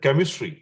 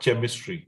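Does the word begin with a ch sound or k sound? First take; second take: k sound; ch sound. First: The word begins with a k sound. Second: The word begins with a ch sound. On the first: The speaker calls it right. "sound C H with the K sound because we call it as chemistry" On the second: The speaker calls it wrong. "and not chemistry"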